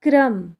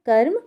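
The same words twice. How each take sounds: First: क्रम said as kram, र blended right after क; teacher models क्रम with र below; pronunciation demo. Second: कर्म said as kar-m, र closing the first syllable before म; teacher models कर्म with र on top; pronunciation demo. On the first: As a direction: say क्रम with kra as one cluster. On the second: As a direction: clip कर्म so the र sits before म. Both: Shown as a demonstration. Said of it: "लेकिन उच्चारण में क्या हो रहा है".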